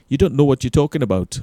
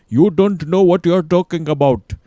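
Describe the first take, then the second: First: Put-on quick, loud stab at a Geordie accent; poorly faked Geordie, higher and hurried; bad Geordie accent. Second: High, loud, exaggerated Geordie; over-the-top Geordie impression of an animated outburst; hammed-up Geordie accent. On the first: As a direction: rattle it off in clumsy, raised-voice Geordie. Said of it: "that's a shit accent". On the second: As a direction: shout it in a mock Geordie voice. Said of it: "he's in a Geordie accent".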